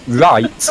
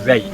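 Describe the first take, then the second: First: It is said with a standard accent. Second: It is said with a Yorkshire accent.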